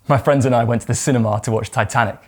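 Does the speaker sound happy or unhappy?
happy. The voice sounds cheerful and enthusiastic. The outing was a great day. "If you had a great day, allow yourself to feel that and let it show"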